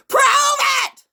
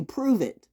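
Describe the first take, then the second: First: Very high, full-force scream; screamed demand. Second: Higher-pitched demand, not yet shouted; firm challenge. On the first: Speaker demanding proof from accusers, screamed demand. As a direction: scream the challenge at them. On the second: Speaker demanding proof from accusers, firm challenge. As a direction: challenge them without yelling. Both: Acted.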